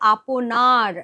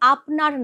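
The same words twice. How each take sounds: First: The word is said longer, as aponar. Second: The word is said short, as apnar. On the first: It means 'one's own'. The speaker calls it right. "এখানে উচ্চারণটা করতে হবে আপনার, মানে নিজের" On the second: It means 'your', said politely. The speaker calls it wrong. "এখানে আপনার নয়"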